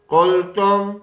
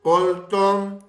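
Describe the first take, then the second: No difference in how they are said.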